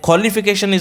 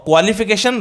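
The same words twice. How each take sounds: First: Qualification as "kholification", no W; right pronunciation. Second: Qualification as "kwalification"; wrong pronunciation. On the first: Teacher giving pupils the correct form, qualification as "kholification". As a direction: open qualification with KHO. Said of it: "qualification is the right pronunciation". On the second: Teacher marking the error for pupils, qualification as "kwalification". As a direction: clear KW glide opening qualification. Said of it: "qualification wrong pronunciation". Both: Shown as a demonstration.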